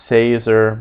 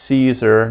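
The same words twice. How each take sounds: First: SAY-zer, as another mistake to avoid; wrong first vowel. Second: "Caesar" as SEE-zer, English style; SEE-zer, as the example to avoid; wrong soft C. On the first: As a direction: say "Caesar" with an S and an "ay" vowel. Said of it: "not Caesar". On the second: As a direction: open "Caesar" with an S and a long ee. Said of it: "and not". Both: Shown as a demonstration.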